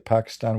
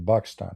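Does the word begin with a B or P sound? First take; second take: P; B. First: The word starts with a P sound. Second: The word starts with a B sound. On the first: "we don't say Pakistan" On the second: "we say Pakistan, right? ... in Arabic we don't have the letter P"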